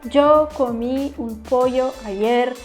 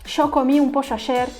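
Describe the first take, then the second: First: The y and ll sounds are said like y. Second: The y and ll sounds are said like sh. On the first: "em outro sotaque" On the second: "na Argentina, os caras falam show"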